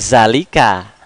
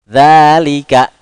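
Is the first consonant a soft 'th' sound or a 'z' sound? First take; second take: z; th. First: The first sound is a buzzing 'z' sound. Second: The first sound is a soft 'th' sound. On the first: The speaker calls it wrong. "Tidak zalika" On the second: The speaker calls it right. "halus dia pengucapannya"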